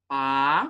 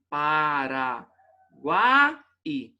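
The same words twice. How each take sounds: First: "Paraguai" in three parts: pa, ra, guai, long pauses; separação em sílabas. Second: "Paraguai" drawn out, with the final i cut loose; separação errada. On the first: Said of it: "se eu fosse separar aqui". ("Paraguai" pausado em três sílabas: pa... ra... guai) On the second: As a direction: say "Paraguai" slowly as para, gua, pause, i. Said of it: "Pra não pensar assim". ("Paraguai" separado errado, com o i sozinho) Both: Shown as a demonstration.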